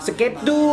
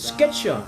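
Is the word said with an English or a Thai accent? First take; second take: Thai; English. First: It is said with a Thai accent. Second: It is said with an American English accent. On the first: It is enough for listeners to understand. "เป็นสำเนียงไทยก็เป็นสเก็ตดู" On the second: It sounds pretentious. "ถ้าออกเสียงเป็นสำเนียงอเมริกันอังกฤษนะครับผมเขาจะบอก"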